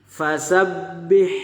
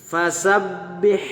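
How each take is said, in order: The two takes are said the same way.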